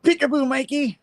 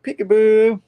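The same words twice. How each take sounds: First: High, sing-song taunting call; spring out and tease him; sing-song ambush. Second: High, loud teasing peekaboo; mocking echo. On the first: Retold or imitated. Mysterio ambushing Peter out of nowhere, high sing-song taunt. Mysterio bursts in mid-scene. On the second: Peter mocking Mysterio's surprise attack, high and loud. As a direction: throw the taunt right back.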